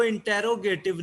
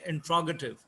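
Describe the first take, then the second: First: "इंटेरोगेटिव" sounded out as in-TE-ro-GAY-tiv, every vowel full; mispronounced word. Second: "इंट्रोगेटिव" run together as in-TRO-guh-tiv; native speakers' pronunciation. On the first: Teacher showing students how not to read "इंटेरोगेटिव", with a full "te" syllable. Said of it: "इसको इंटेरोगेटिव नहीं पढ़ना आपने". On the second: Teacher showing how native speakers read "इंट्रोगेटिव", with "tr" run together. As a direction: say "इंट्रोगेटिव" with "tr" joined, no "te" syllable. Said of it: "अहले ज़ुबान इसको ऐसे बयान करते हैं". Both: Shown as a demonstration.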